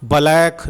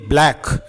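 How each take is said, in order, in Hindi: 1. b और l को धीरे-धीरे अलग-अलग खींचकर बोलते हैं। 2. b और l को एक साथ जल्दी से बोलते हैं। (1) "ब्लैक नहीं" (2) "फुर्ती से बोलना होगा आपको"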